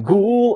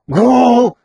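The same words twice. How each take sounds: First: The word is said in a plain, clean voice. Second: The word is said in a strained, distorted voice. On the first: "Не «гул»" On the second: "перегруженного голоса а-ля [name]"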